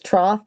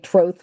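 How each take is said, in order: First: The vowel does not rhyme with oath. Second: The vowel rhymes with oath. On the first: "The more American way of saying it, I think, is troth" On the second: "a lot of Americans say troth like oath"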